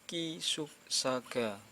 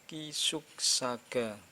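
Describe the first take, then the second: The two takes are said the same way.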